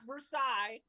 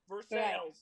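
First: The name is pronounced the French way. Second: The name is pronounced the local way. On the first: The speaker calls it wrong. "Not Versailles" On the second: The speaker calls it right.

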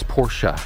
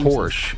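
First: The name is said an unusual, different way. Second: The name is said the everyday English way. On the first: The speaker calls it right. "It's Porsche, for instance" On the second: The speaker calls it wrong. "It's not"

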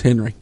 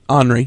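First: The name is said the plain American way. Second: The name is said in an exotic, foreign way. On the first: "H-E-N-R-I in America. Is Henry" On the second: "but they're pronouncing it Henri"

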